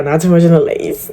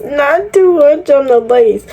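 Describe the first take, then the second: First: Said in the usual way. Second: Pitched way up and drawn out slowly, each word of the warning stretched; sing-song scolding of her own wig; high mock-stern warning. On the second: Shown as a demonstration. Hair vlogger to viewers, mock-stern high warning. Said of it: "repeat of the warning".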